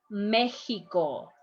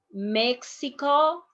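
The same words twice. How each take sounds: First: Mexico as "MEH-hee-ko"; slow "Mexico" with a throat H; Mexican pronunciation. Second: Mexico with a KS sound; slow "Mexico" with X as KS; English-style X. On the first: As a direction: say "Mexico" slowly with X as H. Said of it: "the way that Mexicans". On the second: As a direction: say "Mexico" as "MEK-si-ko", slowly. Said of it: "when you are in Mexico". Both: Shown as a demonstration.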